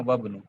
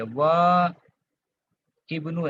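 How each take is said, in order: First: "वब्नु" low, joined without the i; linked reading. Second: "व इब्नु" split, long wa, pause, then full i; unlinked original form. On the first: Teacher showing what is read, not written, "वब्नु" linked without i. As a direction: run wa straight into bnu as "वब्नु". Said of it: "कैसे पढ़ेंगे?". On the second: Teacher showing the underlying form, "व इब्नु" pulled apart with i sounded. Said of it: "ऐसा था". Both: Shown as a demonstration.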